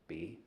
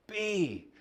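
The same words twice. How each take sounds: First: Quiet be. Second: Be called out high; retold shout. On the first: Shown as a demonstration. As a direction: let be settle softly. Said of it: "and the quiet". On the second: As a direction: fling the word up like a shout. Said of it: "Runs around shouting".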